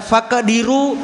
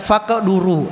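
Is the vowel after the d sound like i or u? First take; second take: i; u. First: The vowel after the d is i. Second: The vowel after the d is u. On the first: The speaker calls it wrong. "Kalau dalnya di kasrah, ini mazhabnya Imam Abu Hanifah. Imam Abu Hanifah membaca faqduru lahu" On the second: The speaker calls it right. "Imam Ahmad dan Imam Malik membaca faqduru"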